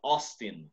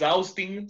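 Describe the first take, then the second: First: The name is said with an English pronunciation. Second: The name is said with a Spanish pronunciation. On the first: The speaker calls it right. "sino Austin" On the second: The speaker calls it wrong. "no es Austin"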